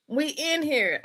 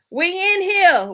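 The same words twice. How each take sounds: First: Said in the usual way. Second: Loud, high hype; hyped call-out. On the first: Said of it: "same words, calmer". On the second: Real, not acted. Host hyping up the live audience, loud call-out. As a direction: shout it out to the room. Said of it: "hyped greeting to viewers".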